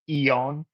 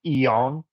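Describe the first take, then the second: First: The name begins with a vowel sound. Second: The name begins with a vowel sound.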